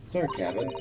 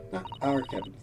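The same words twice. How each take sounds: First: Our rising; "our" said with a questioning rise; stress on our. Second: Our falling; "our" said firm and falling; stress on our. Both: Shown as a demonstration.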